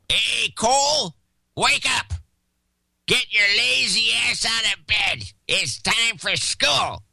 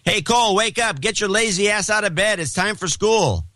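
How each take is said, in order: First: It is said in a grouchy old man's voice. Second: It is said in a mild, plain voice.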